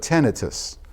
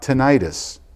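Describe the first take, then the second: First: The stress is on the first syllable. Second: The stress is on the second syllable. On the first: The speaker calls it right. "but tinnitus" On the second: The speaker calls it wrong. "not tinnitus"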